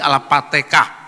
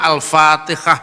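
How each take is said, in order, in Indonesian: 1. Kata itu diawali dengan bunyi p. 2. Kata itu diawali dengan bunyi f.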